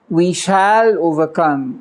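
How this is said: The word shall is said with strong emphasis. "with emphasis"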